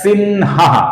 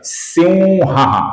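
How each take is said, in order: First: The nasal before 'ha' sounds like n. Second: The nasal before 'ha' sounds like nasal v. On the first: The speaker calls it wrong. "अपूर्ण न के साथ उच्चारण करते हैं। ये दोनों उच्चारण गलत है" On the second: The speaker calls it right. "इसका सही उच्चारण है"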